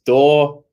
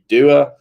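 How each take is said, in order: First: The word is said with a single 'or' vowel. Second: The vowel is read as spelled, like 'doo-er'. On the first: This is how native speakers say it. The speaker calls it right. "door is pronounced door" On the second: This is a guess from the spelling. The speaker calls it wrong. "if you read that in a book, it would just be doer"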